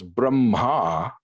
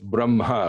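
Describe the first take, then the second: First: The final vowel is long. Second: The final vowel is short. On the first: It names the masculine creator god. "a long A at the end" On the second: It names the neuter absolute reality. "Brahma with a short uh at the end"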